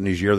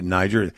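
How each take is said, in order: First: "Niger" said the French way, nee-ZHAIR; French pronunciation. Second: "Niger" said the English way, NY-jer; English pronunciation. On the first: Guest quotes the former French colony's own name, French pronunciation. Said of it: "they pronounce it Niger". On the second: Guest gives his country's version of the name, English pronunciation. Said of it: "we pronounce it Niger". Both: Shown as a demonstration.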